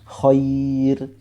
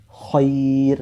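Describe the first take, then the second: No difference in how they are said.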